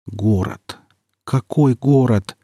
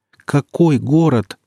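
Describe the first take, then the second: First: Slow, numb-lipped murmur; numb lips. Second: Slow and louder, higher; rising despair. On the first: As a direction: mouth it through numb lips. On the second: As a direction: cry it out in disbelief. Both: Acted. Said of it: "шевелил Никита онемевшими губами".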